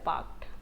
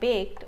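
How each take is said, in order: First: The vowel is a plain open a sound. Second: The vowel is the fronted umlaut sound. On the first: The speaker calls it right. "इसमें उमलाउट नहीं आएगा, सिंपल है बाक्ड" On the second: The speaker calls it wrong. "या बेक्ड उमलाउट आएगा"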